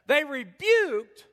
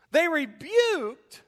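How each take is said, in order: First: "they rebuked" again drawn out slowly, high and loud; preacher repeats "they rebuked" slow and heavy; slow emphatic repeat. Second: "They rebuked" drawn out slowly, high and loud, each word hit; preacher slows right down on "They rebuked"; slow emphatic stress. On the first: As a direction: hammer "they rebuked" home. Preacher repeats key word. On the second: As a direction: lean hard on "They rebuked" to shame them. Preacher hammering the key word. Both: Acted.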